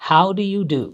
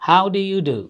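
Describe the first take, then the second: Both takes have the same delivery.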